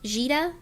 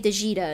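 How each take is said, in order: First: The name is said with two syllables. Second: The name is said with three syllables. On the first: "her name is pronounced Jita, I think" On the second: "I used to say Dejita and that wasn't right"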